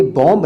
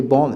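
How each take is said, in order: First: "बॉम्ब" with the final B sounded; wrong pronunciation. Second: "बॉम्ब" said as "bom", B silent; correct pronunciation. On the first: Teacher showing the silent-B mistake, mispronounced. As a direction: release a clear B ending "बॉम्ब". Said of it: "ये बॉम्ब नहीं है". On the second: Teacher showing the silent B, correctly pronounced. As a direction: end "बॉम्ब" on the M. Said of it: "ये बॉम्ब है". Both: Shown as a demonstration.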